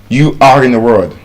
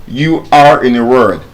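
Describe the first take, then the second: No difference in how they are said.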